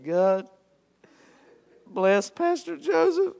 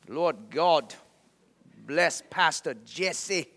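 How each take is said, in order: First: High-pitched, choked-up mock sobbing; mock tearful prayer. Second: Slow, halting prayer in an imitated Chinese accent. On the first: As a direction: squeak out a prayer as if too overcome to speak. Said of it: "I just started boo-hooing". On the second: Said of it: "praying over me in his Chinese accent".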